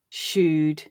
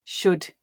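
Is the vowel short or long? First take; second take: long; short. First: The vowel is long, as in fool. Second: The vowel is short, as in full.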